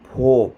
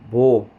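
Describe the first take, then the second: First: The consonant is said with a slight puff of air. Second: The consonant is said without a puff of air. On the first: "kadugay transition ako siya, hinihinay to na ay hangin" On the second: "Ang first pronunciation, Bisaya pa siya nga type, so wala pa siya hangin-hangin"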